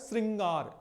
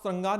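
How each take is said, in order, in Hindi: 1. पहले अक्षर में स्पष्ट 'ri' ध्वनि है। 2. पहले अक्षर में कोई स्पष्ट 'ri' ध्वनि नहीं है। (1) "री का उच्चारण हो रहा है" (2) "आप श्रृंगार ना पढ़ें"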